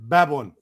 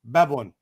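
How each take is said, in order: No difference in how they are said.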